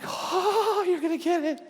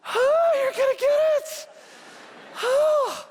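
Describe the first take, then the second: First: Higher-pitched retold threat, half-hearted menace; a first taunting warning to the ice thrower; mock threat. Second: Very high, much louder, near-shrieking threat; soaked and livid, howl the threat; furious mock threat. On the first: Pastor threatening unseen ice thrower, mild mock menace. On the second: Soaked pastor shouting threat at fleeing kids, hammed-up rage. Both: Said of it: "And I'm like".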